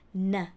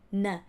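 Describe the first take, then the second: Both takes have the same delivery.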